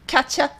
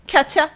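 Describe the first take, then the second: First: The word 'you' is reduced to 'ya'. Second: The word 'you' is reduced to 'ya'.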